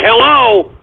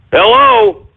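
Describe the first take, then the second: First: A puzzled hello into the mic; calling out unsure. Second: Much higher, alarmed hello; calling out high. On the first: Host testing his glitching mic, puzzled hello. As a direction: check whether anyone can hear. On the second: Host checking his broken mic, high alarmed call. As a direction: call out, worried nobody hears. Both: Real, not acted.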